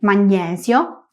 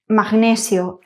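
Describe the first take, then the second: First: The gn is sounded as one ny sound. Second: The g and n are sounded separately. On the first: This is the Italian pronunciation. "en italiano G, N, E es ñe" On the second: This is the Spanish pronunciation. "en español decimos magnesio y magnético, pronunciando tal cual se escribe"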